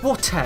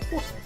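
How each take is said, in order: First: The t is hit hard and exaggerated. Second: The t is pronounced lightly, without emphasis. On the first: The speaker calls it wrong. "you're not going" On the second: The speaker calls it right. "You're just saying"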